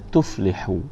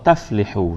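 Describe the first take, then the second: First: The first syllable has the vowel 'u'. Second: The first syllable has the vowel 'a'. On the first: The speaker calls it right. "Kena tuflihu" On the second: The speaker calls it wrong. "Salah ni tuan-tuan. Ni tak tepat"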